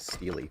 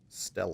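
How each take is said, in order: First: The word ends in a long 'ee' sound. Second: The word ends in a short 'ah' sound. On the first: The speaker calls it wrong. "I've been mispronouncing that. I've been pronouncing it Steely" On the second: The speaker calls it right.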